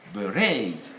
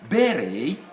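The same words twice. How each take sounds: First: The stress is on the second syllable. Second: The stress is on the first syllable. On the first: This is the American way of saying it. "In the States, on the second syllable" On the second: This is the British way of saying it. "in the United Kingdom, we stress on the first syllable"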